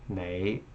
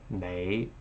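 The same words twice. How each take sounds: First: The word begins with an N sound. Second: The word begins with an N sound.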